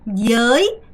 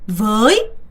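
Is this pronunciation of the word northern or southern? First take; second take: southern; northern. First: It is said with the southern Vietnamese pronunciation. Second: It is said with the standard, non-southern pronunciation.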